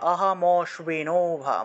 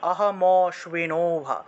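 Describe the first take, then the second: The two takes are said the same way.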